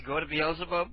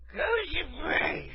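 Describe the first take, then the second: First: Said in the usual way. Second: High, slow slurred mumble; half-snore mimicry. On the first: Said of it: "What did she say?". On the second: Imitating the sleepy woman who was called, trailing into a snore. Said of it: "trailed off into a half snore".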